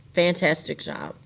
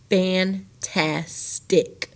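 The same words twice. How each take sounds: First: Said in the usual way. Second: Fantastic pulled apart very slowly into three beats; syllable by syllable. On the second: Shown as a demonstration. Teacher to class, sounding out the divided word slowly. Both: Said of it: "So my next syllable is tas".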